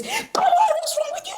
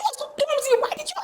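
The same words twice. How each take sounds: First: Much higher, shrill exasperated scold; a parent yelling at a child who broke a glass. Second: Put-on the same parent nagging the child again; scolding parent. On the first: Retold or imitated. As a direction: snap at the clumsy child. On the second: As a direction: still high, the repeat falling off and fading. Parent scolding child over broken glass.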